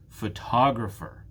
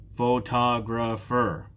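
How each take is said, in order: First: Photographer joined up, strong TOG; stress on second syllable. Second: Photographer slowly, four full beats, pho, to, gra, pher; syllable by syllable. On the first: Teacher asking which one is stressed, "Photographer" stressed on "tog". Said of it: "It's the second syllable that is stressed". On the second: Teacher showing four syllables, "Photographer" slowly split in four. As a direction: give every syllable of "Photographer" its own slow beat. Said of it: "There are four syllables". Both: Shown as a demonstration.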